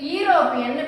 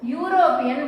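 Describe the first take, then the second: First: The word begins with a plain vowel sound. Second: The word begins with a 'yoo' sound. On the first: The speaker calls it wrong. "இத வந்து யூரோப்பியன் படிக்க கூடாது" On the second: The speaker calls it right. "எப்படி படிக்கணும்? யூரோப்பியன் படிக்கணும்"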